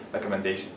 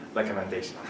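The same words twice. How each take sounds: The two takes are said the same way.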